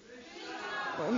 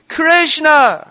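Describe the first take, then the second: First: It is said flatly, without feeling. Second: It is cried out with strong feeling.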